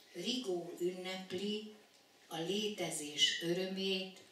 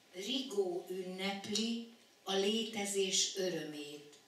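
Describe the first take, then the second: The two takes are said the same way.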